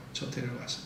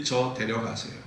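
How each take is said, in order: First: 저 데려가세요 said much softer; worn-out soft plea to God; faint plea. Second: Said in the usual way. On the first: Acted. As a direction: fade 저 데려가세요 to a weary murmur. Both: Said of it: "하소연하면서 기도합니다".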